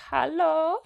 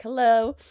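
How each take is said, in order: First: Put-on high-pitched German-accented greeting, rising. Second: Said in the usual way. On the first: Imitating mother-in-law answering on the phone, German accent. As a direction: mimic a high German "hallo". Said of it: "I gave her a German accent". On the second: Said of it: "don't know why I gave her".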